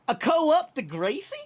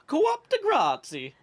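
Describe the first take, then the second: First: The phrase is said with a plain pronunciation. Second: The phrase is said with an Italian-sounding pronunciation.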